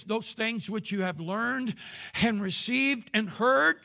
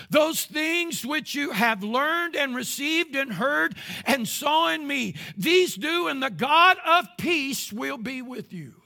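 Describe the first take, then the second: First: Said in the usual way. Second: Slow, louder, higher repeat of the verse; rising preacher's declamation; preached emphatic reading. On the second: Acted. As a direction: thunder the verse out. Loud, slow second reading.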